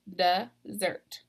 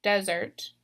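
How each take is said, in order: First: Slow desSERT, second syllable stressed. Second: DESert, first syllable stressed; "desert" said DEZ-ert, for comparison. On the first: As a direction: sound out "dessert" as duh-ZERT, slowly. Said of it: "I'm stressing that second syllable". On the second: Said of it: "compare this". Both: Shown as a demonstration.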